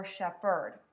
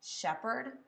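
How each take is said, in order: First: Shepherd stressed oddly as shep-HERD; stress on second syllable. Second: Shepherd stressed as SHEP-herd; stress on first syllable. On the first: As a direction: land hard on the last syllable of shepherd. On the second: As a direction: lean on the opening syllable of Shepherd. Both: Shown as a demonstration. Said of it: "Let me say it again".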